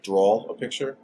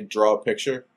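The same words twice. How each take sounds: First: Draw is said with an extra L at the end. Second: Draw is said plainly with no added L. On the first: "they would like throw like a weird L on the end of it" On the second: "if I say draw a picture"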